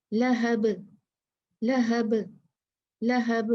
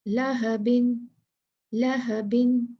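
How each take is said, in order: First: लहब stopped on a bounced ba; qalqalah stop on ba. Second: लहबिन slow with the kasratain, no stop; read through. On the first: Teacher showing students the stop on लहब. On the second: Teacher reading लहबिन in full for students. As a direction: read लहबिन slowly to the end. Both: Shown as a demonstration. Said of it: "और जब मुझे रुकना है".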